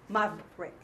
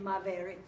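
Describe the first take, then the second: First: The middle vowel is dropped, giving two syllables. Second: The word is said with three full syllables. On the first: The speaker calls it right. "it's cutting it" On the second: The speaker calls it wrong. "You don't say maverick"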